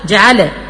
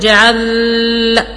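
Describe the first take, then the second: First: The L is released with an echoing bounce. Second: The voice stops and holds on the L. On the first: "او اقلقلها" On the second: "اسكت على اللام"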